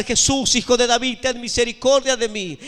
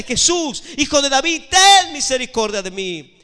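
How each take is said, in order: First: Raised, pleading call; crying out. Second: High, forceful cry for mercy; louder desperate shout. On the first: Blind beggar begins calling to Jesus, crying out. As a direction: call out for mercy in a preacher's retelling. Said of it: "él comienza a gritar". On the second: Blind beggar shouts after passing Jesus, louder desperate shout. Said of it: "él gritaba más fuerte". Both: Retold or imitated.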